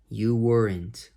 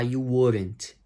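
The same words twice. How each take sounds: First: "You weren't" slow with a clear W; correct separated version. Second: "you weren't" run together like "you oren't"; wrong linked version. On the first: Teacher modelling the right way, slow and clear. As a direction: say "You weren't" slowly, W and R kept apart. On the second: Teacher showing students the mistake, sounds linked. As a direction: slur "you weren't" with R and E blended. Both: Shown as a demonstration. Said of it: "Não emenda o, o R com o E".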